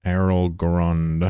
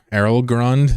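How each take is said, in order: First: Errol Grund stretched very slowly, each syllable savored; drawn-out name. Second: Errol Grund? rising high and louder in disbelief; incredulous question. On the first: Shown as a demonstration. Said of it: "Jeez, I hate that". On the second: Real, not acted. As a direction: ask Errol Grund? as if it can't be real. Rereading the name incredulously.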